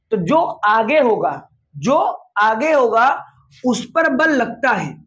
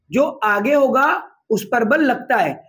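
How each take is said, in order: First: Slow, word-by-word rule with pauses; slow, spelled-out rule. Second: Said in the usual way. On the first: Shown as a demonstration. Physics teacher spelling out the force rule slowly, chunk by chunk. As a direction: lay out जो आगे होगा slowly, one chunk at a time. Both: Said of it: "इसका बड़ा अपना मतलब होता है".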